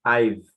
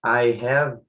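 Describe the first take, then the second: First: "I've" contraído numa sílaba só; contracted form. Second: Said in the usual way. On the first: Shown as a demonstration. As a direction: junte "I have" em "I've", bem curto. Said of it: "aí você vai usar a contracted form". (forma contraída "I've") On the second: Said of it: "Você pode dizer".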